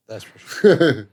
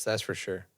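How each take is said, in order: First: Slow drawn-out repeat. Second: Said in the usual way. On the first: Shown as a demonstration. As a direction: stretch it out slowly, teasing. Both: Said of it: "repeated in a different way".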